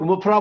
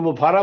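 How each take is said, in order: First: The name is said short, ending in 'ra'. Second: The name is said with a long middle, ending 'ra'. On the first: "हम लोग मुफरा बोलते हैं" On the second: "तो मुफारा बोलते हैं"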